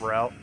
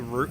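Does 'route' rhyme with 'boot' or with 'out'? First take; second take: out; boot. First: The vowel sounds like in 'out'. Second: The vowel sounds like in 'boot'. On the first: This is the other common way. "instead of route" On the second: This is the speaker's own, somewhat northern way. "I say route ... you pronounce it as root"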